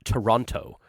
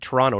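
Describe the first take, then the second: First: The second T sound is pronounced. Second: The second T sound is dropped. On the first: The speaker is not from the city. "not Toronto" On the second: The speaker is from the city. "for uh, for not uh, saying the T"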